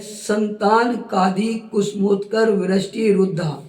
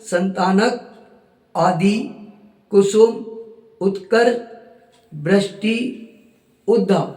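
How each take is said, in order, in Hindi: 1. शब्द के हिस्से एक समास की तरह जुड़कर बोले जाते हैं। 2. शब्द के हिस्से अलग-अलग शब्दों की तरह बोले जाते हैं। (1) "उसमें अक्षर में अक्षर मिला है" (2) "उसको अपन ने चेंज क्या कर दिया?"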